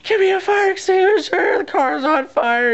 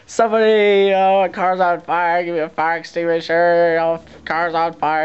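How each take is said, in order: First: Retold desperate shout. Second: Retold frantic yelling. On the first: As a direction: scream it like nobody listens. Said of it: "I'm like". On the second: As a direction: call out for help in a panic. Yelling for a fire extinguisher.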